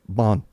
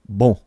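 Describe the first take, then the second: First: It is said with an American accent. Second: It is said with a French accent.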